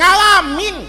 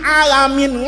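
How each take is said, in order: First: The word begins with an ng sound. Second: The word begins directly with a vowel. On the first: This is how old Javanese speakers said it. "orang Jawa dulu Pak, itu nggak bisa" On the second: This is how the teacher said it. "Kata gurunya alamin"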